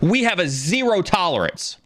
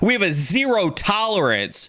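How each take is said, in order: First: It is said with ordinary, calm energy. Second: It is said with more force and energy.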